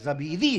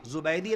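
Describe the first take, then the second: First: The name begins with 'za' and has 'bee'. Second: The name begins with 'zu' and has 'bai'. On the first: The speaker calls it right. "ज़बीदी है" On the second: The speaker calls it wrong. "ज़ुबैदी नहीं"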